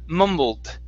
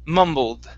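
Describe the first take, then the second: The two takes are said the same way.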